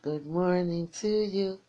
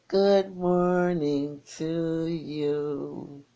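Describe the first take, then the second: First: Said in the usual way. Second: Very slow drawn-out greeting. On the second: Real, not acted. Radio host greeting a caller on air, very slow and drawn out. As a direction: stretch every word of good morning to you out long and lazy.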